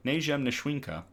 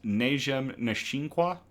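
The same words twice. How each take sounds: First: Najem Nishwinka, SHWIN in the middle, ending in KA; settled pronunciation. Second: Najem Nishinkwa, slowly, last name ending in KWA; tentative pronunciation. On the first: Reader settling on the Yurok name, settled pronunciation. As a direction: say Najem Nishwinka higher, falling at the end. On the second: Reader guessing at a Yurok condor name, tentative pronunciation. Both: Real, not acted. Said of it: "I think it's pronounced".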